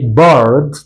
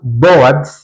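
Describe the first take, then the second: First: It uses the natural English pronunciation of the word. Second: It uses a common learner's mispronunciation of the word. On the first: The speaker calls it right. "the best pronunciation we say bored" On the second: The speaker calls it wrong. "ntabwo tuvuga bored"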